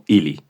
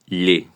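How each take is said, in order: First: The L is pronounced plain and hard. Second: The L is pronounced soft and light. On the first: The speaker calls it wrong. "no ili" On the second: The speaker calls it right. "y veis que suena ille"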